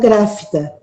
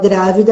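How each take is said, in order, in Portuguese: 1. A consoante do meio é um som de f surdo. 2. A consoante do meio é um som de v sonoro. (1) "ela fala gráfida. Ela faz uma troca de som" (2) "Em vez de falar grávida"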